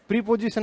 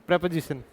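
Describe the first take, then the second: First: प्रीपोजिशन said "pree-po-ji-san"; long "pree" and "po" in प्रीपोजिशन, soft; mispronunciation. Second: प्रीपोजिशन said "prep-uh-ji-san"; short "prep", light middle vowel in प्रीपोजिशन, soft; correct pronunciation. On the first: Teacher rejects the students' way, प्रीपोजिशन as "pree-pojisan". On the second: Teacher corrects students quietly, प्रीपोजिशन as "prep-uh-jisan". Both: Shown as a demonstration. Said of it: "प्रीपोजिशन नहीं है".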